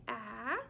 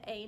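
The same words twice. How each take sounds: First: "ah" said as the short A in cat; teacher demonstrating "ah" as the vowel of cat; short A sound. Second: "a" said as the letter name, "ay"; teacher demonstrating "a" rhyming with day; long A sound. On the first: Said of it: "The A does not say ah". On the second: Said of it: "The A does not say a". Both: Shown as a demonstration.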